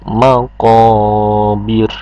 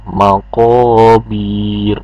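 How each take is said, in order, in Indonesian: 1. Vokal sebelum r terakhir dibaca pendek. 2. Vokal sebelum r terakhir dipanjangkan. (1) "Enggak panjang juga... langsung maqabir" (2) "Jadi bukan dibacanya maqabir, enggak begitu"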